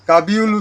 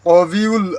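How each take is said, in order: First: A b sound follows the first vowel. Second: A w-like sound follows the first vowel. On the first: The speaker calls it wrong. "কাবিউল উচ্চারণ হবে না" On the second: The speaker calls it right. "এই জায়গায় হবে কবিউল আজিজ"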